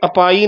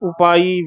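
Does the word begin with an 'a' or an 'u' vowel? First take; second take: a; u. First: The word begins with an 'a' vowel. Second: The word begins with an 'u' vowel. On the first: The speaker calls it wrong. "ਇਹ ਕਿਤੇ ਅਪਾਈ ਨਾ ਬੋਲਿਆ ਜਾਵੇ ਐੜੇ ਦੇ ਨਾਲ" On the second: The speaker calls it right. "ਉਪਾਈ ਵੇਖਾ ਇੱਥੇ ਵਿਸਰਾਮ"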